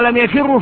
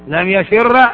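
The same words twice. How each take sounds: First: The last word ends with a u vowel. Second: The last word ends with an a vowel. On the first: The speaker calls it wrong. "أما لم يفر فلا" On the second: The speaker calls it right. "هذا أيضا جائز تخلص بالفتحة لأنها للتخفيف"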